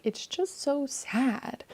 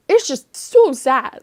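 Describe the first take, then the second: First: Higher, slow, softer lament; softer sad sigh. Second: Louder, higher, slow anguished cry; real upset. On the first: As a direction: let it fade into quiet sorrow. Repeating her sadness over the ending. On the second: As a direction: let the sadness burst out on so sad. Upset about the book's ending. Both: Real, not acted.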